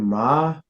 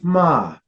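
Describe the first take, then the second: First: The pitch starts low and rises. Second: The pitch starts high and falls. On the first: "your low rising tone" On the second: "your high falling tone"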